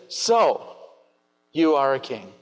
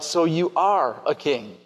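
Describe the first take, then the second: First: Pilate's line in a different tone; alternate inflection. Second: Evenly stressed, "So you are a king" slowed and falling on are; plain reading. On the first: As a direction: try another tone of voice. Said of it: "Or maybe he said". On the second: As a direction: read it level and unhurried. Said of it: "Is that the inflection that he used?". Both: Shown as a demonstration.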